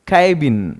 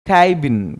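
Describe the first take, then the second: Both takes have the same delivery.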